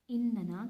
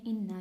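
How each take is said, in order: First: "इन्नना" said with a clear separate na; inna with extra na. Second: "इन्ना" said as just two syllables, in-na; short inna. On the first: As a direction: stretch "इन्नना" into three syllables, in-na-na. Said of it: "हम इसे इन्नना भी लिख सकते हैं". ("इन्नना" को इन-ना-ना की तरह साफ़ बोलना) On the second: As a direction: keep "इन्ना" short, doubled n then a. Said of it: "हम इसे एक तरह भी लिख सकते हैं इन्ना". ("इन्ना" को सिर्फ़ इन-ना बोलना) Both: Shown as a demonstration.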